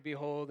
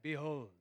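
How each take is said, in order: First: Said in the usual way. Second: Lightly put-on British accent; a touch of Shakespearean British. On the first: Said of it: "you're supposed to say the word". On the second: Shown as a demonstration. Preacher mocking how biblical the word sounds, British accent. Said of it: "in only a British accent".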